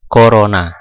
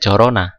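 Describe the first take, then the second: First: The word begins with a k sound. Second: The word begins with a ch sound. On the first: The speaker calls it right. "tapi yang dibaca Corona" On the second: The speaker calls it wrong. "Cara bacanya kan nggak Corona"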